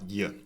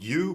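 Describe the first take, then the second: First: The word is reduced to a short y sound. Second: The word is said with a full vowel. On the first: The speaker calls it right. "but y" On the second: The speaker calls it wrong. "not you"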